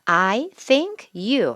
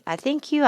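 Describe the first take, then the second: First: Each word is said separately and clearly. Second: The words are run together into one flow. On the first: The speaker calls it wrong. "이렇게 안 해줘요, 원어민이" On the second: The speaker calls it right. "연음 think you"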